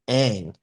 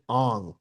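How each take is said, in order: First: The vowel sounds like the one in 'bang'. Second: The vowel sounds like the one in 'song'. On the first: This is the name as used in the show. The speaker calls it right. "the main character's name in Avatar is Aang" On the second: This is the name as changed in the movie. The speaker calls it wrong. "in the movie they pronounce it Ong"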